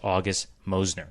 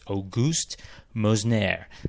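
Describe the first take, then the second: First: The name is said with an English pronunciation. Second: The name is said with a French pronunciation. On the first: This is how a non-French speaker would read it. "I would have read it as" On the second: This is how a long-time Paris resident says it. "she said it's"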